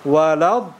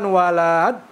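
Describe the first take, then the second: First: The lam is said with higher pitch. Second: The lam is drawn out longer. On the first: The speaker calls it right. "intonasinya kita tinggikan" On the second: The speaker calls it wrong. "Jadi bukan walad, ini salah kalau gitu ya"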